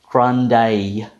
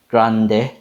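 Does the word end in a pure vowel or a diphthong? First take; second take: diphthong; pure vowel. First: It ends in a gliding diphthong vowel. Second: It ends in a pure eh vowel.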